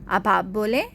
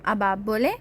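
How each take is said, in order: No difference in how they are said.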